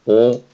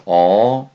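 First: Said in the usual way. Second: お as the open, unrounded Korean eo, louder. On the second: Shown as a demonstration. Teacher shows learners a sound not in Japanese, お as open eo. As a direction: say お loudly with loose, open lips. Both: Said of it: "これが日本にない発音ですね".

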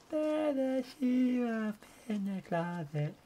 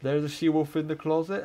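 First: High, slow spooky singsong. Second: Said in the usual way. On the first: Pretend. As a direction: draw it out like a ghost story. Repeats line in eerie voice.

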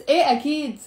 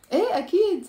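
First: Sarcastic إيه أكيد, louder timbre on a fall; sarcastic yes. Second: High, falling إيه أكيد; sincere yes. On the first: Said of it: "it doesn't mean I'm saying yes". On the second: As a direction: agree readily, pitching إيه high. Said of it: "You see the difference in my, uh, in the tone of my voice?". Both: Shown as a demonstration.

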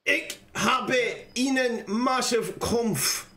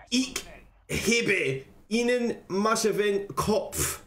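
First: Slow, halting German reading; careful amateur German accent; attempted German. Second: Slow, deliberate German accent; amateur German accent, word by word; put-on German accent. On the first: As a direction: read German slowly, word by word. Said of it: "I'll read that again in German". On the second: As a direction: read it slowly in your best German accent. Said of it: "I'll get my German accent on". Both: Shown as a demonstration.

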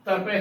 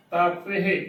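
First: "ਤਪੇ" with a short first a; wrong pronunciation. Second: "ਤਾਪੇ" with long aa, then pe-he; correct pronunciation. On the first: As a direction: shorten the opening vowel of "ਤਪੇ": ta-pe-he. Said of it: "ਤਪੇ ਨਹੀਂ ਉਚਾਰਨ ਕਰਨਾ". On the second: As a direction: hold the aa in "ਤਾਪੇ", finish on breathed he. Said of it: "ਸੋ ਤਾਪੇ ਉਚਾਰਨ ਕਰਨਾ". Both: Shown as a demonstration.

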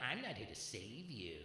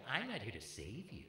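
First: Softer, lower, slow mock-solemn girl voice; lightly mock a girl's solemn line; mimicking girlfriend. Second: Softer, lower mock-serious girlfriend voice; a hint of a preachy self-help girl; mimicking girlfriend. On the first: Comic quoting a girl who dumped him, hushed mock-solemn. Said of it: "I had a girl say that to me". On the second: Comic mimicking young women lecturing a man, lightly mocking. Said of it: "they'll tell you".

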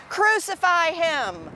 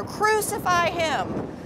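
First: High, drawn-out mock shout; restrained crowd chant, high and stretched; crowd shouting back. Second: Very high, drawn-out crowd cry; narrated roar, higher rather than louder; mob's louder roar. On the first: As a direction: cry it out slowly as the crowd. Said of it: "They shouted back". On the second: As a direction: stretch it out high like an insistent mob. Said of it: "the mob roared even louder". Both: A narrator's reading.

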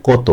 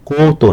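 First: "কত" said as kaw-to; correct open vowel. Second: "কত" as a higher, long koh-to; rejected o-vowel. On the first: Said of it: "ওকার দাবি বলছে না, এখানে বলছি". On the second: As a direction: stretch "কত" into "koh-to" as the wrong form. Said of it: "কত না". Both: Shown as a demonstration.

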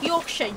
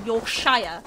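First: Said in the usual way. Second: "Yorkshire?" with the full "shire" rhyming with fire; full shire ending. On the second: Shown as a demonstration. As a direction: stretch "Yorkshire?" into "York-shy-er", the ending drawn out. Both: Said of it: "pronounce Shire as, like, the full Shire bit".

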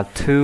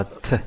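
First: "to" said fully, with a long oo; careful, unreduced "to"; full vowel. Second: "t" as a short "tuh"; brief schwa "t", no oo vowel; natural weak form. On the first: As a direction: say "to" like "too". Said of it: "Bạn có thể đọc cái này là". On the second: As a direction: reduce "to" to a quick unstressed "t". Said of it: "một cách tự nhiên hơn". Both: Shown as a demonstration.

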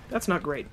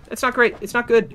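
First: Muttered concern; quiet dismay. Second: Higher and louder, alarmed; not great, now more alarmed. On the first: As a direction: say it under your breath. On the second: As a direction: let the worry break out. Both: Real, not acted. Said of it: "repeats the phrase, getting louder".

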